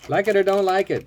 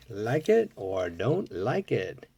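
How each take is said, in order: First: Louder and higher, punching out the rule; emphatic declaration. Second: Slow musing repeat. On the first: Collector declares his toy-car rule, loud and emphatic. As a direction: announce it firmly, like a motto. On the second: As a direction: let the motto settle, drawn out. Same rule repeated, musing. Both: Real, not acted.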